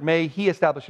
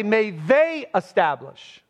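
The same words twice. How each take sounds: First: "he" leaned on, singular subject; stress on he. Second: "they" stretched and stressed, slowed. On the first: Pastor showing the literal Greek wording, light stress on "he". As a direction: lean gently on "he" in "may he establish". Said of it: "Literally, we would say". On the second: Pastor showing the wording Paul did not use, stress on "they". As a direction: hit "they" as the wrong plural reading. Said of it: "And he doesn't say". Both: Shown as a demonstration.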